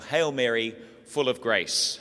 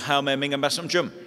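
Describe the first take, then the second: First: The words are said at a normal, clear pace. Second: The words are rushed together very quickly.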